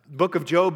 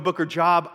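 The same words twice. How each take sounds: First: Said in the usual way. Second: "Job" said like a job at work; mispronounced Job. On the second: Shown as a demonstration. New believer confusing the Bible book, "Job" mispronounced to rhyme with rob. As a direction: say "Job" with a short o, rhyming with rob. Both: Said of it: "I did not know the difference".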